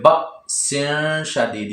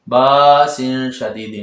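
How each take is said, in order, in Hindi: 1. पहला स्वर झटके के साथ अचानक रुक जाता है। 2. पहला स्वर बिना झटके के लंबा खींचा जाता है। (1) "हमजा साकिना को झटका दे के पढ़ते हैं" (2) "नहीं लिखा हुआ, हरूफ मद्दा नहीं है"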